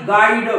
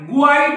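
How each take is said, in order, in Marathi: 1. g नंतर w चा आवाज येत नाही. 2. g नंतर w चा आवाज येतो.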